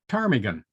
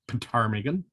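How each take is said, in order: First: The word starts with a silent p. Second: The word starts with a sounded p. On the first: The speaker calls it right. "We say it Ptarmigan" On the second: The speaker calls it wrong. "we don't pronounce it Ptarmigan, which would be silly"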